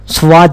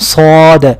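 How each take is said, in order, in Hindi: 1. इसमें पहले व्यंजन के बाद w का साउंड है। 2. इसमें पहले व्यंजन के बाद w का साउंड नहीं है। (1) "स्वाद नहीं पढ़ना" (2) "और फिर सौद"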